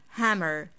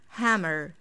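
Both takes have the same delivery.

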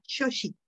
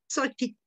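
First: It is pronounced with a Nahuatl-style accent. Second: It is pronounced with a Spanish-style accent. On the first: "En náhuatl sería" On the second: "con acento pues ya castellanizado"

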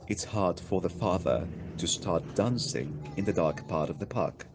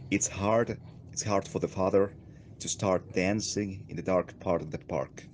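First: The sentence is said with a British accent. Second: The sentence is said with an American accent. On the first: "If you want to follow a more British pronunciation, you might say" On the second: "if you go for a more American accent, and I will try my best to nail it"

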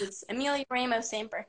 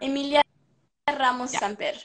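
First: It is said American-style without a rolled R. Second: It is said Spanish-style with a rolled R. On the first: This is the name adapted for English speakers. "when I'm talking to all my very American friends" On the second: This is the name's native pronunciation. "did you roll an R? ... yeah"

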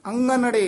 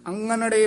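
First: The middle consonant is a nasal ng sound. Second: The middle consonant is a nasal ng sound.

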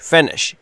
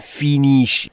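First: The first vowel is a short i. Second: The first vowel is long, like ee. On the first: The speaker calls it right. "ای کوتاه" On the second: The speaker calls it wrong. "نمیگم finish"

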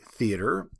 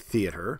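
First: It is said with an American accent. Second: It is said with a British accent.

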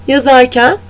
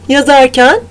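The two takes are said the same way.

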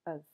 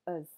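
First: The word has a reduced schwa vowel. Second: The same.

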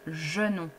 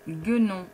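First: The word begins with a soft J sound. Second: The word begins with a hard G sound. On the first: The speaker calls it wrong. "sans le U, en fait, je vais le lire genon" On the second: The speaker calls it right. "le mot guenon"

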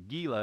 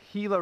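First: The word begins with a hard G sound. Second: The word begins with an H sound. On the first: The speaker calls it wrong. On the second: The speaker calls it right.

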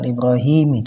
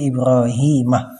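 First: The name ends with an 'i' vowel. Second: The name ends with an 'a' vowel. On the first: The speaker calls it wrong. "bukan dengan kasrah, bukan dengan Ibrahimi" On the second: The speaker calls it right. "tanda jarnya adalah al-fathatu"

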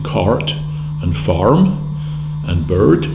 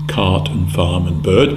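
First: The R sound after each vowel is pronounced. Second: The R sound after each vowel is dropped. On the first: "whether the R was pronounced in cart and farm and bird, as is typical of most American English" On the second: "or whether it was omitted"

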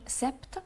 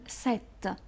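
First: A p sound is heard before the final t. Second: No p sound is heard before the final t. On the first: The speaker calls it wrong. "مش هنقول سبت" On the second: The speaker calls it right. "مش هننطق البي"

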